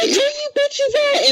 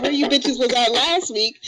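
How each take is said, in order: First: Very high, drawn-out mock demand; hammed-up high holler; mock grumpy yell. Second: Mild mock yell, higher and drawn out; half-hearted retold holler. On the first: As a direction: imitate a cranky friend calling out, stretched high. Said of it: "woke up ... on the wrong side". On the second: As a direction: call it out slowly, no real shouting. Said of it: "I was yelling out".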